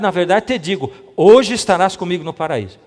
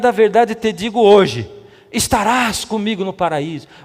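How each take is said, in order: First: The pause comes before the word hoje. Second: The pause comes after the word hoje.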